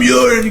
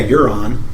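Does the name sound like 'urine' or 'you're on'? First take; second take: urine; you're on. First: The name sounds like 'urine'. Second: The name sounds like 'you're on'. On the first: The speaker calls it wrong. "He said urine" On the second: The speaker calls it right. "the writers actually pronounce it correctly"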